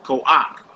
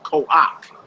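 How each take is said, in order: First: The 'ah' vowel comes before the final consonant. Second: The same.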